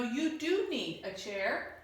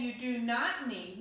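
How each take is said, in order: First: "do" lifted to affirm it; stress on DO. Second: "not" picked out as the negative; stress on NOT. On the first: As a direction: correct them by leaning on "do". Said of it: "This is emphatic". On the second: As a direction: lean on "not", falling away after. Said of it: "it's not a negative statement". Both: Shown as a demonstration.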